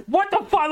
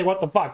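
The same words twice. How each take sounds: First: Much higher, incredulous yelp; the announcers can't believe what they saw; shocked disbelief. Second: Said in the usual way. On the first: Retold or imitated. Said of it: "the announcers again are like". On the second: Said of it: "I don't say".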